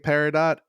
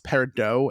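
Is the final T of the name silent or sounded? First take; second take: sounded; silent. First: The final T sound is pronounced. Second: The final T sound is silent. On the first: This is how the show says it. "I say Peridot because they say Peridot" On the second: This is the proper pronunciation. "the proper way to say it is"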